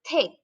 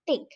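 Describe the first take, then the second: First: The first consonant has a puff of air. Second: The first consonant has no puff of air. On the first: The speaker calls it right. "It's the thick" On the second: The speaker calls it wrong. "it's not the thick. No, don't say like that"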